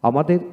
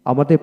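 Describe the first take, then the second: No difference in how they are said.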